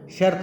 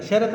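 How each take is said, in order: First: शर्त as "shart", rt joined; correct pronunciation. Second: शर्त split into "sha-rat"; wrong pronunciation. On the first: Teacher corrects children's usage, correctly pronounced. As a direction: join r and t in शर्त. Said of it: "शर्त होती है". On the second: Teacher scolds children's usage, mispronounced. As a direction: add a vowel after r in शर्त. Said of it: "शर्त नहीं होती". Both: Shown as a demonstration.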